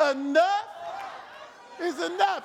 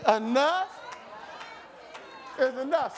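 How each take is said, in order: First: Mad at the devil. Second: Said in the usual way. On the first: Shown as a demonstration. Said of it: "say it like they mad at the devil". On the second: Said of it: "y'all didn't hear me".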